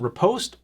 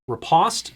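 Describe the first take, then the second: First: The word is said with an American pronunciation. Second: The word is said with a British pronunciation. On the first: "depending on if you're in the U S" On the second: "I think the U K was the other pronunciation for it"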